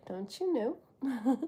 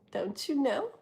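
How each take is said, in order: First: "Don't you know?" slow and soft, each word stretched; slow, teasing catchphrase delivery; drawn-out catchphrase. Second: Said in the usual way. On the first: Shown as a demonstration. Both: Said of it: "I'm gonna be saying that a lot".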